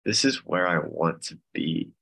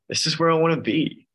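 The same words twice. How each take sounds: First: Said in the usual way. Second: "This is where I wanna be" much higher and louder; emphatic realization. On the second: Retold or imitated. Member telling group "This is where I wanna be", emphatic. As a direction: lift and push "where I wanna be". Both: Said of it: "it just became like".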